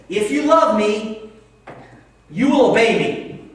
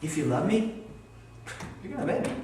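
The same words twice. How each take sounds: First: Loud, high, slow stern command; angry God. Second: Gentle reading. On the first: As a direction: thunder it like a scolding God. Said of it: "hear that verse like this". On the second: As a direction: offer it as a loving question. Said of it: "listen, I read it this way". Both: Acted.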